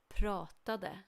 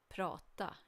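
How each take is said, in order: First: The final -de syllable is pronounced. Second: The final -de syllable is dropped. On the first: "you always write the full form, and it's not wrong to pronounce it" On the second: "in spoken Swedish we often don't bother with pronouncing the ending"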